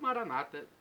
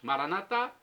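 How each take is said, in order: First: The stress is not on the last syllable. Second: The stress is on the last syllable. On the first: This is the Protestant way of saying it. "dos protestantes" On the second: "com a tônica na última sílaba e a pronúncia católica"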